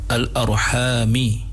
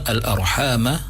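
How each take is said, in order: First: The word ends with an 'i' vowel. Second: The word ends with an 'a' vowel. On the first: "ada juga dibaca dengan al-arhami dibaca oleh al-Imam Hamzah Az-Zayyat" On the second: "Yang pertama al-arhamah dibaca oleh jumhur qurra"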